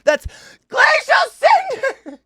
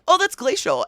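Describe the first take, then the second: First: It is shouted loudly. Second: It is said at a normal, quiet volume.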